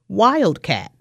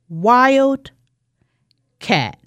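First: The word is said whole, with no break. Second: The word is said in two parts. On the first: "Say it with me" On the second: "I'm going to segment it to wildcat"

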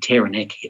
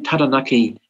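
First: The name has an anglicized English pronunciation. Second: The name has the Maori pronunciation. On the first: It is said among English speakers. "at the church or Rotary Club" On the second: It is said among Maori speakers. "Don't say Taranaki on the marae"

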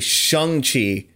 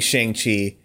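First: The name has a non-Americanized pronunciation. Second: The name has an Americanized pronunciation. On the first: The speaker calls it right. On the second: The speaker calls it wrong. "I keep saying just because once again I am stupid American"

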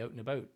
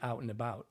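First: The vowel is raised, with a tighter jaw. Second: The vowel is open, with a lower jaw. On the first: This is how the actors actually say it. "You say out and about" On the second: This is the neutral target pronunciation. "I need you to say out and about"

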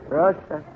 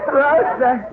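First: The name is called flatly, without feeling. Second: The name is called warmly, with feeling.

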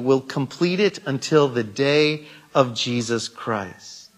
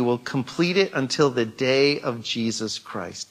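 First: The phrase is read at a slower pace. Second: The phrase is read at a normal pace.

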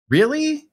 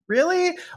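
First: The word is said at a middle pitch. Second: The word is said at a higher pitch. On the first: It sounds more insistent. "And then when you go up another pitch" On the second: It sounds most insistent. "And then a third time"

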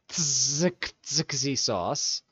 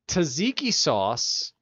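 First: It is pronounced the way it is spelled. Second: It is pronounced in the usual way.

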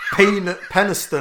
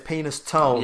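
First: The name ends without the word 'tone'. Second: The name ends with the word 'tone'. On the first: This is how the locals say it. "I think they pronounce it" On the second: It is said this way as a joke. "it's nicer to think of it as Penis Tone"

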